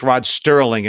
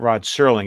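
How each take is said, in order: First: The surname has a T sound after the S. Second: The surname has no T sound after the S. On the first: The speaker calls it wrong. "It's not with a T" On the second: The speaker calls it right. "It actually actually is Serling"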